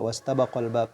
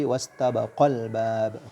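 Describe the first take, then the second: First: It is read flat, without any emphasis. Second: It is read with clear emphasis on the verb. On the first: Only one person is meant. The speaker calls it wrong. "jangan dibaca wastabaqal bab, jadi dibaca datar" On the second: Two people are meant. The speaker calls it right. "Tapi wastabaqal bab"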